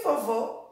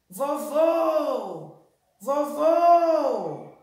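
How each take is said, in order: First: Said in the usual way. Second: "vovô" called out with a long closed final "vô"; "vovô" drawn out on its last syllable; stress on the last syllable. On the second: Shown as a demonstration. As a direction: stretch the second syllable of "vovô" high and long. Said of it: "Também é o segundo vô".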